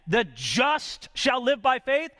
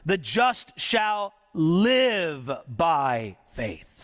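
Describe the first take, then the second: First: The word just carries the main stress. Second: The word live carries the main stress. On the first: The focus is on the justified person. "That's talking about the justified man" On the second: The focus is on how one lives.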